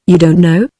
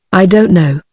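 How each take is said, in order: First: "You don't know" as a question, rising on "know"; questioning echo. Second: "I don't know" said as an answer, falling at the end; falling statement. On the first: Commissary echoes the answer, "You don't know" rising in question. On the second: He answers the commissary, "I don't know" falling away. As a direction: let "know" drop as a statement. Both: A narrator's reading.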